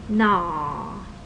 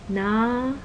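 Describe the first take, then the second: First: The syllable's pitch falls from high to low. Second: The syllable is said on a middle pitch. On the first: It means face. "Falling tone" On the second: It means rice paddy. "Mid tone"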